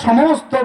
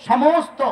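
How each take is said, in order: The two takes are said the same way.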